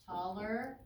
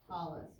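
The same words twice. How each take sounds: First: Taller with a clear rising -er; teacher modelling the comparative form Taller for students; stressed ending on Taller. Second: Tallest with a falling, drawn -est; teacher modelling the superlative form tallest for the class; stressed ending on tallest. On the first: Slow deliberate demo of Taller. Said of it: "we use E R". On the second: Deliberate demo of tallest. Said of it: "or E S T". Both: Shown as a demonstration.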